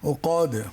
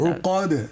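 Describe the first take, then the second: First: The word ends with a d sound. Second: The same.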